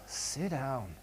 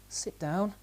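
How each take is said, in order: First: It sounds exasperated and fed up. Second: It is quiet and timid, like a question. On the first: The speaker is stressed and losing patience. "I'm just really fed up and my tone is more" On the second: The speaker is asking rather than telling. "a very quiet voice, and maybe even a little question in the tone"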